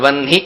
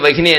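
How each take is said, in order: First: The word is said with two syllables. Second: The word is said with three syllables. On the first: The speaker calls it right. "వన్ని అని పలక" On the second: The speaker calls it wrong. "వహిని వహిని అనేకూడదు"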